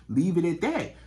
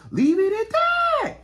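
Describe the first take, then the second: First: Said in the usual way. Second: Very high, loud, slow holler; drawn-out shout. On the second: Pretend. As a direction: shout it way up high, stretching every word. Repeats the catchphrase as holler.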